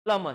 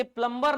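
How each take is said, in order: First: "प्लम्बर" with silent B, barely any R; correct pronunciation. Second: "प्लम्बर" with B and R sounded; wrong pronunciation. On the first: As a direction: say "प्लम्बर" as plum-uh. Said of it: "बी silent है". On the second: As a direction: say "प्लम्बर" as plum-bur. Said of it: "ये प्लम्बर नहीं है भैया". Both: Shown as a demonstration.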